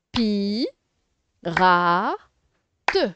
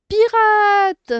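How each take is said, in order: First: "Pi. Ra. Te." in three separate beats, loud on Ra; syllable by syllable. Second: "Pirate" called out high and loud in one go; whole word, exclaimed. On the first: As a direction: sound out "Pi. Ra. Te." with pauses. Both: Shown as a demonstration. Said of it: "en séparant les syllabes".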